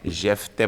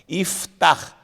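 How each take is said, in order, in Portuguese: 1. O nome começa com um som de 'jef'. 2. O nome começa com um som de 'if'. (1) "por que que não pode ser Jefté?" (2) "essa é a palavra certa"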